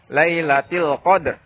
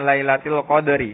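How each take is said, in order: First: The word ends on a half-pronounced r. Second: The final syllable ri is fully pronounced. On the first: "kalau setengahnya" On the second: "Kalau dibaca full kan ri-nya tuh dibaca"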